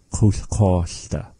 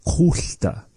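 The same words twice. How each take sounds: First: "Kulkosta" said slowly, syllable by syllable; slow pronunciation demo. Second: "kulta" whispered, no voice, higher; whispered variant. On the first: Teacher showing the usual form, said slowly and clearly. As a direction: spell out "Kulkosta" slowly for the learner. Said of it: "usually we hear it being said". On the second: Teacher giving the other form of the word, whispered. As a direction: breathe "kulta" with no voice. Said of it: "a different way of saying it". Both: Shown as a demonstration.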